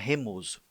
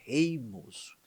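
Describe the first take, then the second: First: The first syllable has a plain 'e' vowel. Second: The first syllable has an 'ei' diphthong. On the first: The speaker calls it wrong. "não é remoso" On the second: The speaker calls it right. "é reimoso"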